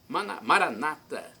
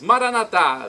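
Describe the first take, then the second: First: The stress falls on the second-to-last syllable. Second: The stress falls on the last syllable. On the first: This is how Protestants say it. "nossos irmãos protestantes dizem Maranata com a tônica na penúltima sílaba" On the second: This is how Catholics say it. "Nós católicos falamos Maranatá com a tônica na última sílaba"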